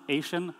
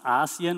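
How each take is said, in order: First: It is said like the word Asian. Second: It is said as three syllables, ah-see-an. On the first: The speaker calls it wrong. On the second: The speaker calls it right. "it's really pronounced ASEAN"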